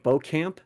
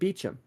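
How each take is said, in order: First: The name sounds like 'bow-camp'. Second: The name sounds like 'beecham'. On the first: "the last name of Beaucamp" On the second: "people actually pronounce it Beecham"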